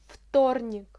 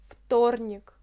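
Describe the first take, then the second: No difference in how they are said.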